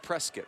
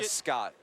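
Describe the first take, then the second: First: The ending rhymes with the word biscuit. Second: The ending does not rhyme with biscuit. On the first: This is how locals say it. The speaker calls it right. "Pronounced Prescott, rhymes with biscuit" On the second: It marks the speaker as an outsider. The speaker calls it wrong. "Don't say Prescott and out yourself"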